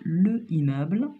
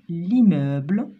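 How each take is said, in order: First: The vowel of le is pronounced separately. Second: The vowel of le is dropped and linked. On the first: The speaker calls it wrong. "On ne dit pas le immeuble" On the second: The speaker calls it right. "on prononce le mot en disant l'immeuble"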